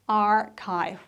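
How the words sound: The word is said with an r sound. "in the American, you say archive with an r"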